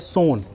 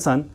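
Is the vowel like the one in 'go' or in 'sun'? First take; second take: go; sun. First: The vowel sounds like the 'o' in 'go'. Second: The vowel sounds like the 'u' in 'sun'. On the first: The speaker calls it right. "पर ये इसको pronounce किया जाता है सोन" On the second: The speaker calls it wrong. "लिखा है सन है ना"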